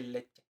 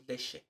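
First: "leche" with a hard ch, as in "check"; standard ch sound. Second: "leche" with the ch softened to sh, like "leshe"; Chihuahua sh sound. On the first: Designer showing how others say "leche", with a crisp ch. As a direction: say "leche" with a full tch. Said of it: "cuando la gente le dice leche". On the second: Designer showing how Chihuahua says "leche", with sh for ch. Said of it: "en Chihuahua decimos leche". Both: Shown as a demonstration.

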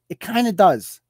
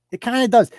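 First: Said in the usual way. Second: "does" leaned on, a touch higher; pressed repeat. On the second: Real, not acted. Repeating his answer to the cop rule, stress on "does". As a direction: push the last word "does" home.

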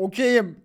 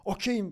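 First: OKEYİM called out loud; much louder, theatrical holler; drawn-out call. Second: Said in the usual way. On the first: Retold or imitated. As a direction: belt out "Okeyim" as a mock proclamation. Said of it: "çekiyor". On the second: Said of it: "falan diyor".

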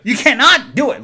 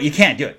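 First: CANNOT hit high and loud; stress on CANNOT. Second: Said in the usual way. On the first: Real, not acted. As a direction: punch "cannot" as a firm, emphatic no. Restates it with added emphasis.

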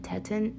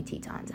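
First: "Teton" with a short e in the first syllable, as TET-un; doubted pronunciation. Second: "Tetons" with a long ee, as TEE-tahns; settled pronunciation. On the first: Unsure of the park's name, trying "Teton" as TET-un. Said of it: "No, it's definitely Tetons". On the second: Correcting own doubt about the park, "Tetons" as TEE-tahns. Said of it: "it's definitely Tetons". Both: Shown as a demonstration.

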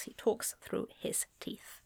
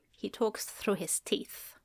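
First: Quieter, teeth-clenched whisper; through the teeth. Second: Whispered through clenched teeth. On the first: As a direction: keep the jaw shut and hiss it. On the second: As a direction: hiss it through your teeth. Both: Shown as a demonstration.

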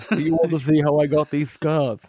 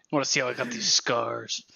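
First: Higher, louder hammed-up Joker; a big, theatrical villain line; Joker impression. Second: Low, soft mock Joker growl; a hushed, menacing Joker line; Joker impression. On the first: Friend topping the Joker bit with a louder version. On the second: Friend teasing the group with a quiet Joker line. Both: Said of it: "He's like the fucking Joker".

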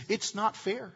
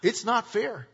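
First: Mock whiner. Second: Lightly mocked whiner. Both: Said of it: "a whiner's favorite phrase is".

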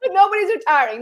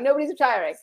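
First: Raised, insistent denial; emphatic. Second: Softer, muttered repeat; quiet. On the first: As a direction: insist on it with a lift. Two contrasting takes. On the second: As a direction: say it again under your breath. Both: Real, not acted.

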